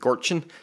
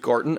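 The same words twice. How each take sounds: First: The name is said with a 'ch' sound. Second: The name is said without a 'ch' sound. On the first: It is how people from the place say it. "somebody from there said Gorton... the ch-ch-ch-ch sound" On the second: It is how an outsider assumed it is said. "I thought it was Gorton"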